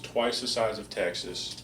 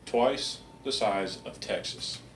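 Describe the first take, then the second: First: It is said at normal speed. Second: It is said more slowly.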